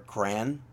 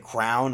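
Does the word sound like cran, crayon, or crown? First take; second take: cran; crown. First: It is said as one syllable rhyming with man. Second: It is said as one syllable rhyming with down. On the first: "Some other people say crown or cran" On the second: "Some other people say crown or cran"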